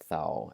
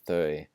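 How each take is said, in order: First: The vowel is an ow sound. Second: The vowel is a rounded ö sound. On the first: The speaker calls it wrong. "the temptation to maybe say thou" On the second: The speaker calls it right. "start saying þau"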